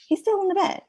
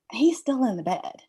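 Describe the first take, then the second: First: Much higher, exasperated disbelief. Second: Said in the usual way. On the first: Retold or imitated. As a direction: replay the shock of finding him still in bed. Mom finds son still in bed.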